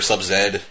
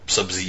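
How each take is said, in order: First: The name ends with the sound 'zed'. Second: The name ends with the sound 'zee'. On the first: This is the non-American way to say it. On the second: This is the American way to say it.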